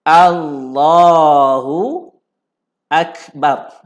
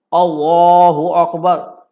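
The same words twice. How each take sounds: First: The first vowel is an open 'a' sound. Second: The first vowel is a rounded 'o' sound. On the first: The speaker calls it right. "Depan ni kena sebut A" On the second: The speaker calls it wrong. "Ada orang sebut O"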